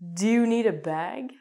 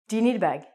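First: Each word is said fully and separately. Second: The words run together as 'nida'. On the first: "they don't say" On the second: "instead of saying wanna, they're going to say nida. So they're going to say"

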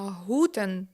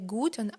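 First: The word starts with a soft h-like sound. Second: The word starts with a hard g sound. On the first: The speaker calls it wrong. "так говорити не можна" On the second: The speaker calls it right. "Звук «г» у німецькій мові присутній"

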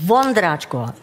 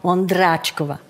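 First: The stress falls on the first syllable. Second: The stress falls on a later syllable. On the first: The speaker calls it right. "Auf erste" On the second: The speaker calls it wrong. "Aber Sie geben Akzent auf"

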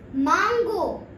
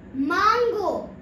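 No difference in how they are said.

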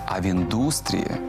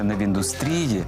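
First: The stress falls on the 'u' syllable. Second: The stress falls on a syllable other than 'u'. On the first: The speaker calls it right. "у словах «індустрія» і «металургія» наголос падає на «у»" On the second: The speaker calls it wrong.

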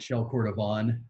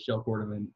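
First: Cordovan is pronounced the Spanish way. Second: Cordovan is pronounced the English way. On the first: The speaker calls it wrong. "I was like kind of reading it from Spanish mindset" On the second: The speaker calls it right. "Everybody says Shell Cordovan except for me"

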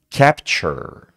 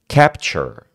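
Both takes have the same delivery.

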